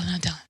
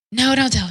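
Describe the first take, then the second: First: Dropped to a much softer plea; soft pleading. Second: Loud, high plea to stop her; pleading no. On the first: Begging mom not to tell dad, much softer plea. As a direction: sink to a near-hush, still begging. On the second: Begging mom not to tell dad, loud high plea. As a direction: cry out to stop her from telling. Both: Retold or imitated.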